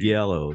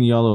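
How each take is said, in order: First: The word begins with a J sound. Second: The word begins with a Y sound. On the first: This follows the spelling of the word. "I pronounce it how it's spelled" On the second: This is how the others pronounce it. "You mean Yalo, like you're pronouncing it"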